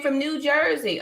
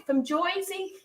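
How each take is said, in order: First: Said in the usual way. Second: High, playful "Joisey" accent; mock New Jersey accent, pitched up. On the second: Shown as a demonstration. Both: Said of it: "My, my Jersey accent".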